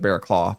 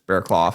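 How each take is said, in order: First: The last syllable sounds like 'claw'. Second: The last syllable sounds like 'clough'. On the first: This is the pronunciation the speaker had assumed. "I always thought it was Bearclaw" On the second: This is how the announcers were pronouncing it. "apparently it's Bearclough"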